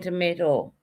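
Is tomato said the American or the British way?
American. The middle vowel is an 'ay' sound. This is how someone else says it. "Tony's saying tomato"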